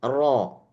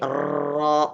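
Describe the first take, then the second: First: The r vibrates only once, then releases. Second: The r keeps vibrating in a long trill. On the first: "hanya sekali saja" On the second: "maka dia akan bergetar terus"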